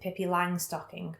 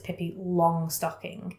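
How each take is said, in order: First: The word 'Long' is said like 'lang'. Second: The word 'Long' is said like 'long'. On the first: This is how one family says it. "Me and my family have always pronounced it" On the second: This is how most people say it. "people around here with people would know it's"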